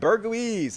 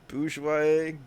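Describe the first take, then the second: First: The first syllable sounds like 'burger'. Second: The first syllable sounds like 'boor'. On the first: "That's how I like to pronounce it. Burger" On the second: "Did I say it right that time?"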